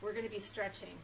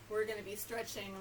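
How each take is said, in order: Both takes have the same delivery.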